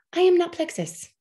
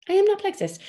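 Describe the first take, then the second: First: "am" punched, higher; I "AM" not plexus; stress on AM. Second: "not" hit hard and much higher; I am "NOT" plexus; stress on NOT. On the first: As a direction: lean hard on "am". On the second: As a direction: slam the word "not". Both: Shown as a demonstration.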